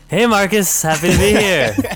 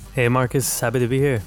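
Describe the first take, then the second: First: It is said with exaggerated, excessive enthusiasm. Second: It is said flatly with little enthusiasm.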